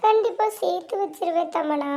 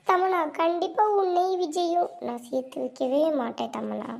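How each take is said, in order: First: Sweetly acted reassurance to the rival; fake sincere promise. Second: A softer muttered-under-the-breath aside; half-hidden scheming, kept down. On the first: Scheming sister promising Tamana, faked sincerity. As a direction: put on a falsely sincere promise. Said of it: "என்னம்மா நடிக்கிறா அக்கா". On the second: Acted. Scheming sister to herself, quietly plotting aside.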